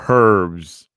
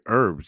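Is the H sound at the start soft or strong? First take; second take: strong; soft. First: The H at the start is strong. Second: The H at the start is very soft. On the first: The speaker calls it wrong. "you don't go herbs" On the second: The speaker calls it right. "It's like real soft H, almost non-existent"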